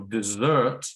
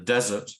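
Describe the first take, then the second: First: The stress is on the second syllable. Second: The stress is on the first syllable. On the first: It is used as a verb. "first one is the verb" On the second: It is used as a noun. "the second is the noun"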